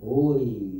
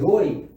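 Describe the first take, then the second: First: It is said in a romantic, tender way. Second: It is said in a plain, neutral way.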